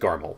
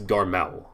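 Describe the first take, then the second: First: The name is said at a normal speed. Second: The name is said slowly and carefully.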